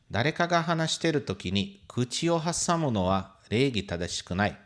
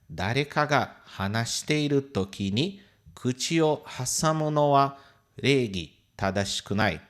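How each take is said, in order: First: It is said at normal speed. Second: It is said more slowly.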